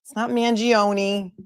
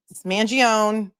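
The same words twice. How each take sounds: First: Mangione said with an extra final "i" sound, Man-jee-oh-nee; mock the wrong Mangione ending in "nee"; wrong pronunciation. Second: Mangione said Man-jee-ohn, with no final vowel; correct pronunciation. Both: Shown as a demonstration. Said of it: "his name is pronounced Mangione".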